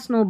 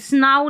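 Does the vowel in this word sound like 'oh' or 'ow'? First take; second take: oh; ow. First: The vowel is said as 'oh'. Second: The vowel is said as 'ow'. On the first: The speaker calls it right. "यहाँ पर ओ पढ़ेंगे" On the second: The speaker calls it wrong. "स्नाउ नहीं बोलेंगे"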